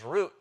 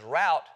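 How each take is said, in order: First: The vowel sounds like the one in boot. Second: The vowel sounds like the one in about. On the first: "as in to rhyme with boot" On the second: "so as to rhyme with about"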